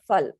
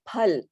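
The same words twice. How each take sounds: First: It begins with an f sound. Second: It begins with a breathy p sound. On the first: The speaker calls it wrong. "it is not Phal in Sanskrit" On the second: The speaker calls it right. "So you say Phal"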